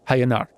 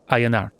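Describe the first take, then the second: First: The name starts with an H sound. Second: The name starts with a vowel sound. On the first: The speaker calls it wrong. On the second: The speaker calls it right.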